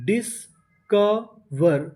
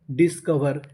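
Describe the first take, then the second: First: discover very slowly in three separate parts; syllable by syllable. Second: Said in the usual way. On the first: Shown as a demonstration. Teacher sounds out a word for learners, discover slowly broken up. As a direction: leave gaps between the pieces of discover. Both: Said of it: "discover का मतलब खोज करते हैं".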